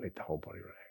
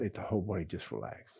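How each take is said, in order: First: Unvoiced, letting the body go; whispered release cue. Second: Said in the usual way. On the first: Shown as a demonstration. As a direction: softly whisper it on the outbreath. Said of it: "you can do this anytime". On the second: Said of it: "as you breathe out".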